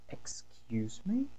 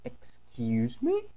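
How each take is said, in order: First: Slow whispered threatening "Excuse me?"; angry mom daring you to repeat it; stern mother. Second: Slow, softer, lower "Excuse me?"; a mom's warning, drawn out; stern mother. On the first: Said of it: "Sabe aquele tom assim". (mãe brava: "Excuse me?" sussurrado, lento e ameaçador) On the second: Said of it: "Sabe aquele tom assim, mais". (mãe brava: "Excuse me?" lento, mais baixo e grave) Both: Acted.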